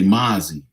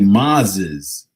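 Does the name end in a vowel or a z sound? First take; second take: vowel; z sound. First: The name ends with a vowel, no z. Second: The name ends with a z sound. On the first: The speaker calls it wrong. "he doesn't even pronounce the Z at the end" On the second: The speaker calls it right. "that's how it's pronounced"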